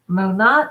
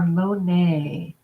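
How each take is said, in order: First: The second syllable sounds like 'not'. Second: The second syllable sounds like 'nay'. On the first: "mo and then not like not" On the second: "mo and then nay like nay"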